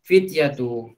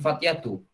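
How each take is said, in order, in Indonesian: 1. Vokal pertama adalah bunyi i. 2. Vokal pertama adalah bunyi a. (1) "harokatnya pakai pakai kasrah" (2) "bukan fatyatu"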